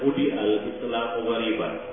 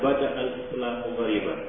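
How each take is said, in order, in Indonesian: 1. Kata pertama diawali dengan vokal u. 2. Kata pertama diawali dengan vokal a. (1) "Di dalam satu riwayat ini dibaca budi al-Islam wariban" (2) "Di dalam riwayat lain dibaca bada al-Islam wariban"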